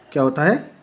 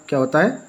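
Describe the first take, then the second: No difference in how they are said.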